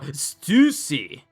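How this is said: The name is said with Japanese pronunciation.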